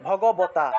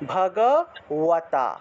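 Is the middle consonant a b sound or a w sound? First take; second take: b; w. First: The lips close fully for a b sound. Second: The lips stay apart, giving a w sound. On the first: "বর্গীয় ব উচ্চারণ করতে হলে ঠোঁট লাগাতে হয়, ... এই যে ঠোঁট লাগে" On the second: "অন্তস্থ বটাকে আবার ঠোঁট না লাগিয়ে ব উচ্চারণ"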